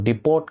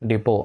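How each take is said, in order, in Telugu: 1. ఈ పదం t ధ్వనితో ముగుస్తుంది. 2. ఈ పదం t ధ్వని లేకుండా ముగుస్తుంది. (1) "డిపోట్ కాదండి" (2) "డిపో అని యూజ్ చేయాలి"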